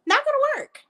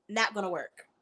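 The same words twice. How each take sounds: First: High, squeaky-pitched verdict; high-pitched dismissal. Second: Low, quiet verdict; low dismissal. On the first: Insisting the dictionary will not help, high-pitched dismissal. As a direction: jump way up high on the repeat. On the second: Dismissing dictionary reading as a fix, low dismissal. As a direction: drop it low and soft. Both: Real, not acted.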